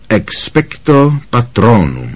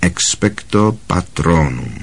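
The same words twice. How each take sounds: First: Slow, measured incantation; demonstrating the spell. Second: Soft, slow, low-key incantation; quiet repetition. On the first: Lupin shows Harry how the formula sounds, measured demonstration. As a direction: pronounce the formula clearly and slowly. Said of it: "Ta formule zní takhle". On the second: Harry repeats the formula after Lupin, quietly. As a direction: try the spell out under your voice, slowly. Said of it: "opakoval po něm tiše Harry". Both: A narrator's reading.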